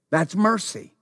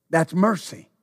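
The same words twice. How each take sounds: The two takes are said the same way.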